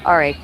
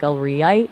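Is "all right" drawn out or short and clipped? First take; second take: clipped; drawn out. First: The words are short and clipped. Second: The words are slowly drawn out. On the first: The speaker is annoyed or wants to end the talk. "a short, clipped, all right" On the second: The speaker is judging or not totally convinced. "if you drag it out like a re-ite"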